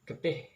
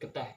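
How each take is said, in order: First: The final syllable has an 'ih' vowel. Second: The final syllable has an 'eh' vowel. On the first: "Kata getih" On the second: "dilafalkan menjadi geteh"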